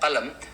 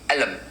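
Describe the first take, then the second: First: The word begins with a q sound. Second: The word begins with a vowel, no q sound.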